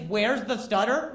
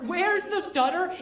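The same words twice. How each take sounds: First: Said in the usual way. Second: High, slower, disbelieving echo; incredulous repeat. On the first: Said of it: "I've been accosted by the phrase". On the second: Retold or imitated. Comedian repeats the phrase he is accosted by, incredulous. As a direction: throw the question back, pitched way up.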